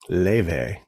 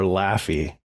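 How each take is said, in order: First: The name is said like 'lay-vay'. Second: The name is said like 'laffy'. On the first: The speaker calls it right. "But it's Leve. Leve, because it's Icelandic" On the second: The speaker calls it wrong. "So you want to call her Laffy"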